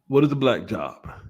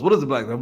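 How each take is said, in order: First: It is said at a normal speed. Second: It is said very fast.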